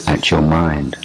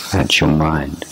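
Both takes have the same delivery.

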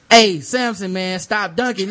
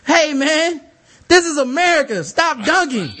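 First: Raised, louder retold call; calling out a warning. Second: High, loud retold outburst; indignant shouted warning. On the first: Court monitor to a dunking player, calling out a warning. Retelling first warning to dunker. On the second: Court monitor warns the dunker a second time, indignant shout. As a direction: holler it across the court, indignant.

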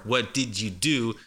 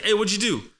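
First: "What did you do?" slowly with "did" fully sounded; slower, careful "What did you do"; careful full form. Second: "what'd you" blended, with a high-pitched "Hey"; higher, run-together "whaddju do"; fast native talk. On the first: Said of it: "you're gonna be listening for". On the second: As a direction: toss out "what'd you do" as a casual high call. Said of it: "when a native speaker talks fast". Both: Shown as a demonstration.

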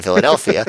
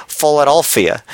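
First: Said in the usual way. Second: Philadelphia with a Philly first vowel, "Fol-" for "Phil-"; Philly accent. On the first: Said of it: "or as they say". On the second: Shown as a demonstration. Podcaster showing how locals say Philadelphia, Philly accent. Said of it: "or as they say, Philadelphia, in Philly".

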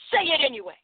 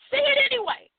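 First: Said in the usual way. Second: The second "Say it anyway" jumps much higher and pushes harder; insistent repeat. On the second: Shown as a demonstration. Host urging listeners to speak up, insistent and higher. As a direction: lift it high and urge them.

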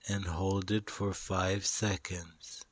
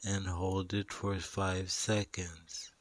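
The two takes are said the same way.

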